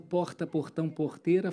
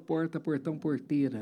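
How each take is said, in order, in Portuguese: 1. É sotaque carioca. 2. Não é sotaque carioca. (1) "Eu não falo"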